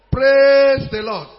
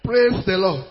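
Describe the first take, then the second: First: Loud, long-held PRAISE; slow, booming praise call; rousing call. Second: Said in the usual way. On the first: Real, not acted. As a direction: stretch Praise out loudly to rouse the congregation. Repeats call to rouse congregation.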